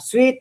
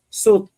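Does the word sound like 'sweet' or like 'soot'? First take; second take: sweet; soot. First: It is said with a glide, like 'sweet'. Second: It is said without a glide, like 'soot'. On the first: This is how the commenters say it should sound. "suwit po, bigkas sa sweet" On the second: This is how the speaker personally says it. "basta ako, suit"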